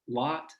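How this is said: The vowel is made further back, like 'lot'. This is the older pronunciation in the region. "Used to be pronounced lot here"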